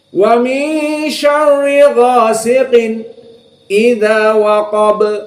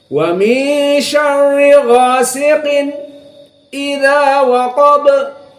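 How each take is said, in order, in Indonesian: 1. Ada jeda diam singkat sebelum kata berikutnya. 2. Ada jeda diam singkat sebelum kata berikutnya.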